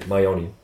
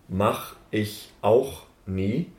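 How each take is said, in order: First: The syllables are merged into one short word. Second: Every syllable is pronounced clearly and separately. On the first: "you just say Mayoni" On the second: "every syllable is like spoken"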